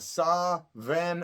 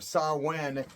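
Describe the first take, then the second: First: The second syllable starts with a V sound. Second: The second syllable starts with a W sound. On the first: "is how it's really pronounced" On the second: "is how it's really pronounced"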